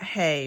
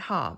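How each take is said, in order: First: The name ends in an 'ay' vowel. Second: The name ends in an 'ah' vowel. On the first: The speaker calls it wrong. "the pictograph that most people pronounce as Hay" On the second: The speaker calls it right. "or more appropriately, Ha"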